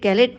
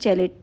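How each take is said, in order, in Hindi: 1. यह शब्द hard g ध्वनि से शुरू होता है। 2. यह शब्द j ध्वनि से शुरू होता है। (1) "इसे गैलिट नहीं प्रोनाउंस कीजिएगा"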